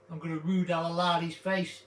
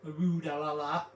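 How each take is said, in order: First: "rude ah la la" said as a playful nonsense phrase inside the sentence; silly word. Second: "rude ah la la" said as a playful nonsense phrase, rising; sing-song "rude ah la la" with stress on rude; silly word. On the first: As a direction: slip "rude ah la la" in as a verb, stress on rude. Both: Shown as a demonstration. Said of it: "Here's another one".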